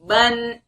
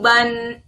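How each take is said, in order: The two takes are said the same way.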